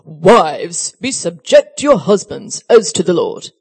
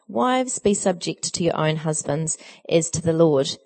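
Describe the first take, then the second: First: It is read in a stern, heavy-handed manner. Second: It is read in a plain, neutral manner.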